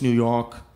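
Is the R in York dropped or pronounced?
dropped. The R in York is dropped. The speaker calls it right. "We don't pronounce the R's. Skip the R always"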